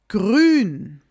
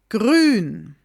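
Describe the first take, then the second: The two takes are said the same way.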